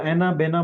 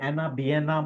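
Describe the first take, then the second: First: The middle vowel is a plain 'e' sound. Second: The middle vowel glides as 'ya'. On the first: "अब इसको एनाबेना बोलो" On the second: "मैं इसको एनाबियना ही बोलता हूँ"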